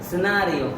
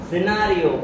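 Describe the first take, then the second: The two takes are said the same way.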